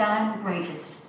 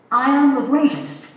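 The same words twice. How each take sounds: First: Said in the usual way. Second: A bad boxer's accent, higher and louder, boasting; bad Muhammad Ali accent. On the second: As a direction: play a bad attempt at the boxer's accent, punching "am". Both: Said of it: "That's a very bad accent".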